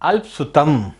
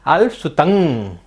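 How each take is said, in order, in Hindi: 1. शब्द एक बंद 'm' ध्वनि पर समाप्त होता है। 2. शब्द एक नासिक्य 'ng' ध्वनि पर समाप्त होता है। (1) "यहाँ हम सभी गलती कहाँ करते हैं" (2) "अंग की तरह इसको हमें पढ़ना है"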